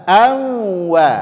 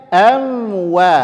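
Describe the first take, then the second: The two takes are said the same way.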